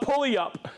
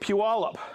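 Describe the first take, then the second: First: The first syllable sounds like 'pull'. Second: The first syllable sounds like 'pew'. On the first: The speaker calls it wrong. "I used to call it Pulley-up" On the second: The speaker calls it right. "I got corrected when I was in Oregon. It's Puyallup"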